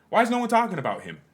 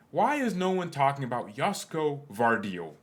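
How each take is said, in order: First: Much higher, louder and fast, punching WHY; exasperated repeat. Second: Said in the usual way. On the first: Real, not acted. Repeating the question to viewers, loud disbelieving outburst. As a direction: blurt it out in disbelief.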